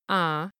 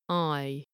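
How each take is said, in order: First: The vowel is a single flat 'ah' sound. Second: The vowel glides from 'ah' toward 'ee'. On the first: "the North Yorkshire I is closer to ah" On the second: "it's more like I. You notice it's going from an ah to an e sound"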